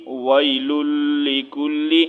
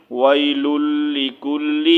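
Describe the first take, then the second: No difference in how they are said.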